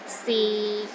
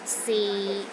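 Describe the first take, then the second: First: The pitch stays low and steady. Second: The same.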